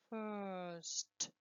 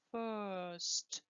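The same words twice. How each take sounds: The two takes are said the same way.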